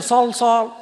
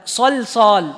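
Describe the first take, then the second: First: صلصال with the lam wrongly heavy. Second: صلصال with thin lams; correct light lam. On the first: Teacher showing students the wrong صلصال, heavy lam. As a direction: say صلصال with a dark, thick lam on purpose. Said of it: "لا، صلصال". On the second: Teacher correcting to the right صلصال, light lam. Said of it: "فما يصح تقول". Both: Shown as a demonstration.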